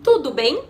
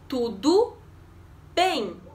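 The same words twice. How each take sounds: First: It is said as a question. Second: It is said as an answer. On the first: It asks how someone is. "if you're asking" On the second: It says that one is fine. "if you're answering"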